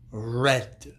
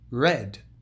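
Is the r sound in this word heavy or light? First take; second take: heavy; light. First: The r sound is heavy and strong. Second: The r sound is light and soft. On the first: The speaker calls it wrong. "They say red" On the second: The speaker calls it right. "The correct pronunciation is much lighter"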